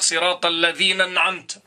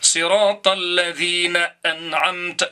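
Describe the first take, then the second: First: The glottal stop before أنعمت is slurred away. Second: The glottal stop before أنعمت is clearly pronounced. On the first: The speaker calls it wrong. "Il faut pas dire" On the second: The speaker calls it right. "يجب عليك أن تنطقها نطقا صحيحا"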